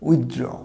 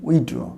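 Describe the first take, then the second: First: The 'th' sound is clearly pronounced. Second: The 'th' sound is left out. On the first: The speaker calls it right. "উচ্চারণটা হবে উইথড্র, টিএইচটা হবে" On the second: The speaker calls it wrong. "আমরা উইথড্র উচ্চারণ করি। এখানে যেন মনে হয় টিএইচটা হবে না"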